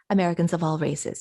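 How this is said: The stress falls on the word races. "you might expect somebody to say Americans of all races, because races is the noun"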